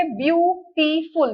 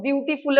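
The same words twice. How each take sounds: First: beautiful drawn out slowly to count syllables; teacher splitting the word into syllables. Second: Said in the usual way. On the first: Shown as a demonstration. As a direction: break beautiful into its beats. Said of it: "इसके syllable check करेंगे". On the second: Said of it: "ना कि mo".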